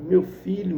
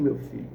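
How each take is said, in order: First: A touch of tears on the first call; tearful call. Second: Softer tearful echo. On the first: Father embraces his son, mildly tearful. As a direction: cry out to the son. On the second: Father holds his son close, a softer tearful repeat. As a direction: repeat it lower and softer, near breaking. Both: Acted.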